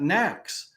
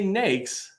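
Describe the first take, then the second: First: The vowel sounds like the one in snacks. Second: The vowel sounds like the one in snakes. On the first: The speaker calls it wrong. "It's not knacks" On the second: The speaker calls it right. "the way you say nakes is like snakes"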